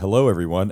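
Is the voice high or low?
low. It is said at a lower pitch.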